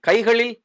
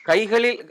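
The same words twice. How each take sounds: Both takes have the same delivery.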